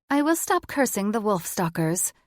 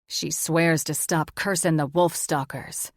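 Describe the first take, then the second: First: Lightly raised djinn character voice; a touch of grudging concession; djinn conceding. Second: Lightly voiced stern male figure; a touch of stern demand; stern condition. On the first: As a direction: agree reluctantly as the djinn. Djinn Jezebeth agrees to terms. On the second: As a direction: lay down terms firmly. Magnus sets his condition for swearing. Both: A narrator's reading.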